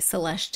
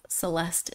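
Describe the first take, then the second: First: The name is said with Portuguese pronunciation. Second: The name is said with English pronunciation. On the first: "my brain has reprogrammed itself to say Celeste" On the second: "instead of Celeste"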